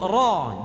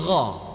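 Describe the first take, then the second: First: The R is a plain tongue-tip sound. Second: The R is a German-like throaty sound. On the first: The speaker calls it right. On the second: The speaker calls it wrong.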